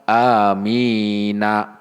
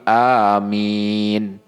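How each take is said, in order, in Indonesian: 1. Huruf n terakhir diikuti vokal. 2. Kata ini diakhiri bunyi n yang mati. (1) "bukan dibaca amina, bukan" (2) "tapi amin"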